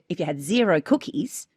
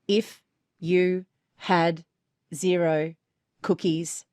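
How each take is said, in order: First: It is said with emotion and an opinion. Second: It is said flatly, without emotion.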